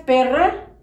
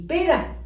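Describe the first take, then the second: First: "Perra" rolled rr, louder; strong rr. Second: "pera" with single tap r; soft r. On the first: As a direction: trill the rr in "Perra". (erre fuerte en "Perra") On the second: (erre suave en "pera") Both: Shown as a demonstration. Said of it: "no es lo mismo".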